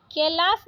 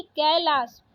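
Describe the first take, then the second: First: कैलाश said "ke-las", closed e; wrong vowel. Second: Said in the usual way. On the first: Shown as a demonstration. Teacher rejecting a spelling, कैलाश with plain e. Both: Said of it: "कैलाश नहीं".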